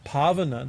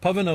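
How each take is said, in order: First: The A vowel is long. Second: The A vowel is short. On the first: It means purifier. "this is with a long A" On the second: It means air or wind. "was a short A, means air"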